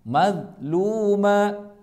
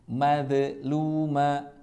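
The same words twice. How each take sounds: First: The d sound is held without bouncing. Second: The d sound bounces with an echo. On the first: The speaker calls it right. "tidak mad tapi ditahan" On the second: The speaker calls it wrong. "itu bacaan yang salah"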